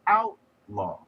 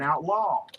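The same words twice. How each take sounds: First: The stress is on the first syllable. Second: The stress is on the second syllable. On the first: The speaker calls it right. "put the accent on the first syllable, you have created a noun" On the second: The speaker calls it wrong. "You wouldn't say"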